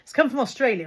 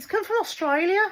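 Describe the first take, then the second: First: It is said in the speaker's natural accent. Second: It is said in a put-on regional accent. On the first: "I'll just say that in my own voice" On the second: "that's a terrible accent. I think that was Birmingham"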